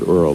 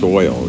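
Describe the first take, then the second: First: It is said in a Bronx accent. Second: It is said in a standard accent. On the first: The speaker calls it wrong. "I said Earl... that's Bronx" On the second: The speaker calls it right. "and it's oil"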